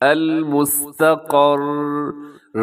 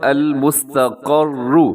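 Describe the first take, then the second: First: The word ends on a bare r consonant. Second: The word ends with a short u vowel. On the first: The reader stops at this word. "मैंने यहाँ पर रुकना है तो मैं कैसे वक़्फ़ करूँगा?" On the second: The reader continues without stopping. "अल मुस्तक़र्रु लफ्ज़ है"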